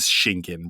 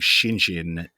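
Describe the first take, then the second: First: The G is sounded as a hard G. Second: The G is sounded like a J. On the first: The speaker calls it right. "it is Shingen" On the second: The speaker calls it wrong. "the G in poor Shingen's name kept getting pronounced like a J"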